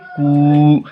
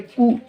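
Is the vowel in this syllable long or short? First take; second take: long; short. First: The vowel is long and stretched out. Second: The vowel is short and not stretched. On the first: "दुर्गऊ को खींच के पढ़ेंगे" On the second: "हर्षऊ को नहीं खींचेंगे"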